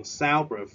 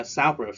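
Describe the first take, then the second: First: SOUNDproof, first syllable raised; stress on soundproof. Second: Said in the usual way. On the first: Shown as a demonstration. Teacher repeating for students: first syllable stressed. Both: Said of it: "chúng ta nhấn ở vần đầu tiên".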